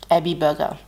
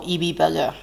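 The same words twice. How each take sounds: First: Ebi with a short E, "EH-bee"; first pronunciation. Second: Ebi with a long E, "EE-bee"; alternative pronunciation. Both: Shown as a demonstration. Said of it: "depending on how you pronounce it".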